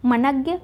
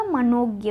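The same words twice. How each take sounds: First: मनज्ञ with short a after n; the mistaken nag in मनज्ञ; wrong form मनज्ञ. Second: मनोज्ञ with long o after n; nog, drawn out, in मनोज्ञ; correct form मनोज्ञ. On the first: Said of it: "मनज्ञ ना हो के क्या होगा". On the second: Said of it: "मनोज्ञ होगा". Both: Shown as a demonstration.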